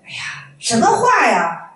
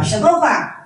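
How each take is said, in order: First: Slow, drawn-out disapproving "哎呀，什么话呀"; mild drawn-out rebuke; critical tone. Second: Short, sharp "什么话？"; clipped disapproving question; critical tone. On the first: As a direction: stretch out "哎呀，什么话呀" like a master scolding a student. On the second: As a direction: snap "什么话？" back at the student as a rebuke. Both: Retold or imitated. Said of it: "就问批评的语气说的啊".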